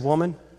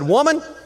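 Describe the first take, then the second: First: The word sounds soft and affectionate. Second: The word sounds blunt and harsh. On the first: The addressee is being spoken to with love. The speaker calls it right. "I believe this is how I believe he said it" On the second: The addressee is being spoken to rudely. The speaker calls it wrong. "No, he didn't say it like that"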